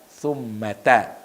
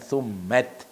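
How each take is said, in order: First: The word ends with an 'a' vowel. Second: The word does not end with an 'a' vowel. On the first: The speaker calls it right. "dibaca summata" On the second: The speaker calls it wrong. "bukan summat"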